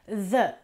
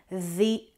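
First: The vowel of 'the' is a short 'uh'. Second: The vowel of 'the' is an 'ee' sound. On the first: "un po' come se fosse una E" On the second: "diventa una I quando abbiamo invece una vocale"

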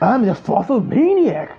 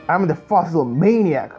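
First: It is read in a wild, crazy voice. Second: It is read in a plain, ordinary voice. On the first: The speaker calls it right. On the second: The speaker calls it wrong.

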